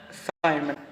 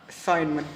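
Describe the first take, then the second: No difference in how they are said.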